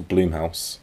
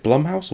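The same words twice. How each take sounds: First: "Bloomhouse" with a long "oo" as in bloom; long vowel in Bloomhouse. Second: "Blumhouse" with a short "uh" as in plum; short vowel in Blumhouse. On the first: Co-host offering the correct name, "Bloomhouse" with long oo. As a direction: stretch the first vowel of "Bloomhouse" to oo. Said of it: "It's Bloomhouse". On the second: Co-host asking which name is right, "Blumhouse" with short uh. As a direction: say "Blumhouse" to rhyme the first part with plum. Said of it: "doesn't know how to pronounce things". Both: Shown as a demonstration.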